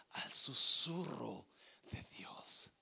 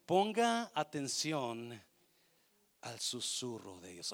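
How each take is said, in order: First: Slow "al susurro", then "de Dios" whispered. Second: Slow, stretched "Ponga atención" with weight on "Ponga"; emphatic call to attention. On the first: Preacher showing God's whisper to the congregation, slow and hushed. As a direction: let "de Dios" fade into a whisper. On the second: Preacher urging the congregation to listen, slow and emphatic. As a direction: drag out "Ponga atención" as a firm summons. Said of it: "esto me encanta". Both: Shown as a demonstration.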